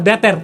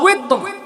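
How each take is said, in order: First: The word begins with a b sound. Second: The word begins with a w sound. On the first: The speaker calls it wrong. "এটার উচ্চারণ আমরা ভুল করি, বলে বেতের" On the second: The speaker calls it right. "সলাতুল ওয়েতর"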